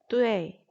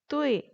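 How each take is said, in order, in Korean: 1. 마지막 'ee' 앞에 'e' 소리가 와요. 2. 'oo'에서 바로 'ee'로 넘어가요. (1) "뚜에이 이렇게 에를 살려서 읽는 것이" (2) "뚜이 이렇게 써주는데"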